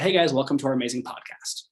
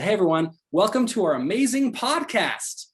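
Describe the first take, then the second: First: It is said in a flat, plain voice. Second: It is said with lively, rising intonation.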